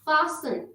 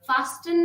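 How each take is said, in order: First: The t sound is left silent. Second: The t sound is clearly pronounced. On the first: The speaker calls it right. "हम इसको खामोश रखेंगे, हम फासन पढ़ेंगे" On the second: The speaker calls it wrong. "फास्टन नहीं"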